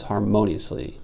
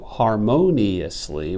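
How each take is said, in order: First: "harmoniously" as har-mo-nyus-ly; "harmoniously" compressed, four beats only; slurred to four syllables. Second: "harmoniously" slow, as har-mo-ni-ous-ly; five full syllables. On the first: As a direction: slur "ni-ous" in "harmoniously" into one syllable. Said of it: "becomes harmoniously four syllables". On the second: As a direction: give "harmoniously" all five syllables, the "ni" kept separate. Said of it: "which is five syllables". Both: Shown as a demonstration.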